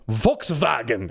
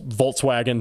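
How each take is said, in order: First: It is said with a German pronunciation. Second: It is said with an American pronunciation.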